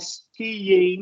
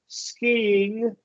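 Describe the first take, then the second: First: The y-like glide in the middle is strongly emphasized. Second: There is no added glide, and the pitch drops. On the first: The speaker calls it wrong. "emphasizing the Y skiing, that sounds very weird" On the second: The speaker calls it right. "initiate that with our throat. Skiing, and you're going to use a tone drop"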